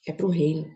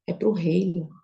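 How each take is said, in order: First: "É pro reino" whispered, no voice; whispered echo. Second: Said in the usual way. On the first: Retold or imitated. God's answer, repeated softly.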